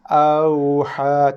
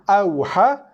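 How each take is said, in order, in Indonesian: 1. Bunyi 'au' dibaca dengan lembut dan lunak. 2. Bunyi 'au' dibaca dengan keras, tanpa kelembutan. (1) "lembutkan dia" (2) "makhrajnya betul, sifatnya tak"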